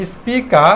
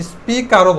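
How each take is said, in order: First: "স্পিকা" ending on an open a, no r; silent final R. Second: "স্পিকারও" with the r pronounced; American final R. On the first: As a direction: leave the last r off "স্পিকা". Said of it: "লাস্টের আটা silent রাখতেও". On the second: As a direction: sound the r in "স্পিকারও", American style. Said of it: "American sound করলে". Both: Shown as a demonstration.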